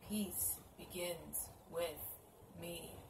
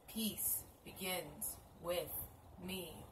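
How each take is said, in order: No difference in how they are said.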